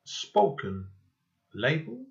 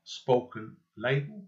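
First: "Spoken" and "Label" said separately with a pause between; careful dictation of "Spoken, Label"; spelled out as two words. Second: "spoken label" said slowly and run together as one name; slow dictation of "spoken label" with a rise on "label"; all one word. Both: Shown as a demonstration. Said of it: "all one word".

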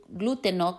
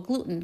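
First: "gluteno" said the Spanish way, three syllables glu-TE-no; "gluteno" pronounced as a Spanish word; Spanish pronunciation. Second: "gluten" said the English way, GLU-ten, two syllables; "gluten" pronounced as an English word; English pronunciation. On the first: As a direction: give "gluteno" its full Spanish form ending in -o. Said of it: "que se llama en español". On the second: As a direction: give "gluten" its short English form. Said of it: "que se llama en inglés". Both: Shown as a demonstration.

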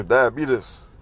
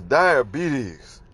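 First: Put-on "diabetes" drawn out as "diabeetus" like the old TV ad; commercial pronunciation. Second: Said in the usual way. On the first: Quoting the diabetes commercial, "diabetes" as "diabeetus". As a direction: say "diabetes" the TV-commercial way, "dia-BEE-tus". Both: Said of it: "or as they say in the commercial".

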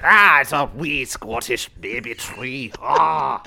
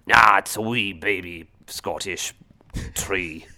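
First: Higher, drawn-out hammed-up Scottish accent. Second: Slow attempt at a Scottish accent. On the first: Co-host asked for a repeat of the impression, hammed-up Scottish accent. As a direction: repeat the Scottish bit slower, pitched up, ending on an "Ah". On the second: Imagined caber tossers scoffing at a small tree, Scottish accent. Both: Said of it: "That's my, uh, Scottish accent".

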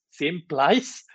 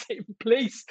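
First: "place" said like "plice"; altered vowel in place. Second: Said in the usual way. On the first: Pretend. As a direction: playfully give "place" an eye vowel. Repeats the altered vowel, then laughs.

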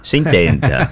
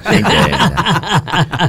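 First: Said in the usual way. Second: High, slow, laughing drawl. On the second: Real, not acted. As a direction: stretch it out through a laugh. Repeat drawn out with laugh.

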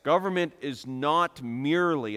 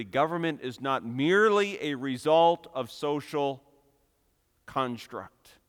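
First: Said in the usual way. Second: Merely pushed out with the peak of the phrase; stress on merely. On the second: Shown as a demonstration. Preacher correcting a notion for listeners, stress on merely. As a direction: lean hard on the word merely. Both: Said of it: "and I stress the word merely".

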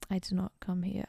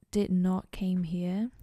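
First: Said in the usual way. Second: "came" said where "come" belongs, slow and loud; stressed "did not came here", drawn out; the slip "came", before she corrects it to "come"; wrong grammar take. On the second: Real, not acted.

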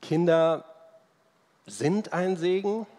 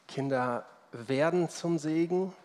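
First: "sind" hervorgehoben, nach einer Pause hinter "Kinder"; Betonung auf sind. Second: "werden" hervorgehoben, weniger laut angesetzt; Betonung auf werden. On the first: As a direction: stress "sind", set apart after a pause, pitched high. ("sind" hoch und deutlich betont) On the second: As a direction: stress "werden" as the contrasting word. ("werden" deutlich als Gegensatz betont) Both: Real, not acted. Gegenüberstellung von sind und werden.

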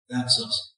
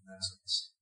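First: Said in the usual way. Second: Breathy near-whisper. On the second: Shown as a demonstration. Preacher telling congregation we are the birds, whispered. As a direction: whisper it as a secret aside.

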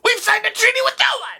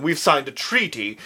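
First: Very high, fast gremlin screech; rapid cartoon creature shriek; John Adams. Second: Said in the usual way. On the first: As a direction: squawk it out like an angry little goblin. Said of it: "John Adams' voice is so good".

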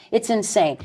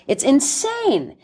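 First: Said in the usual way. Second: "insane" stretched out slowly, said higher and weighted; emphatic slow. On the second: Shown as a demonstration. Guest condemning the culture on radio, stretching "insane" slowly.

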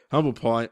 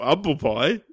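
First: Said in the usual way. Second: HUMBLE said as 'umble, no H; HUMBLE starting straight on the vowel; dropped H. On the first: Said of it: "or, or humble pie". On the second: Shown as a demonstration. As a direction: drop the H off HUMBLE. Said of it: "or humble pie".

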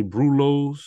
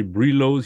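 First: Brulos said as BROO-lohz; rounded "broo" first syllable in brulos; other co-host's pronunciation. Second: Brulos said as BREE-lohz; "bree" first syllable in brulos; one co-host's pronunciation. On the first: Host comparing his co-hosts' words for gnats, "broo" version. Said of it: "he say brulos". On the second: Host comparing his co-hosts' words for gnats, "bree" version. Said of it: "You say brulos, he say brulos". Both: Retold or imitated.

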